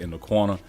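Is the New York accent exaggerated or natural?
natural. The New York accent is natural and unforced. This is how the speaker really says it. The speaker calls it right. "I say in the corner because uh, I'm from the East Coast"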